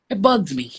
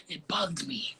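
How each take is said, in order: First: Said in the usual way. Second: Confessing it in a whisper. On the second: Real, not acted. Guest admits her anger to the host, whispered. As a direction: breathe it out like a secret. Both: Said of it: "I ain't gonna lie".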